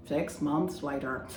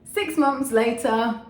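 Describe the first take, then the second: First: Slow mock narrator, lightly put on; time-skip narrator. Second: Loud, high, drawn-out announcement; big slow caption voice, pitched up; time-skip announcer. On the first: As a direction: say it slowly, like a title card. Time-skip caption, second take. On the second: Pretend. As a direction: proclaim the time jump slowly and loudly.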